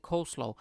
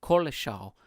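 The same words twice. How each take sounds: First: "Coleslaw" said as KOHL-slaw, like the counter guy said it; correct coleslaw. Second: "Coleslaw" read from the spelling as KOL-uh-shaow; spelling-based coleslaw. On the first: Retold or imitated. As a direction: give "Coleslaw" the English way, first syllable kohl and slaw at the end. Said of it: "I'm reading coleslaw and it's pro". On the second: Shown as a demonstration. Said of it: "it's spelled differently".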